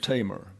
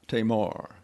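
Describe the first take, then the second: First: The stress is on the first syllable. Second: The stress is on the second syllable. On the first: The speaker calls it right. "the accent is on the first syllable" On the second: The speaker calls it wrong. "Oftentimes you hear it pronounced Tamar"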